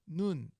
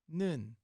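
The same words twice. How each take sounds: First: The vowel is said with tightly rounded lips. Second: The vowel is said without rounded lips. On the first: The speaker calls it right. "make your mouth like a little kissy mouth here" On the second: The speaker calls it wrong. "It's not nun"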